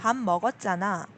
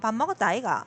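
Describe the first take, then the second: First: It is said in the standard Seoul accent. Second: It is said in a southern Korean accent.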